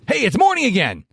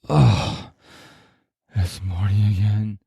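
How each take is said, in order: First: It sounds excited and happy. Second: It sounds gloomy and unhappy.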